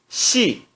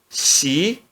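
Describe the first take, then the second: First: The pitch falls sharply from high. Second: The pitch rises from mid to high. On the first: "E no quarto tom" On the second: "No segundo tom"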